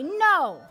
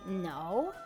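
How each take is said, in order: First: It is said short and firm. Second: It is said drawn out and doubtful. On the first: It means no. "it means no" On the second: It could mean well or even yes. "it could mean well, or even yes"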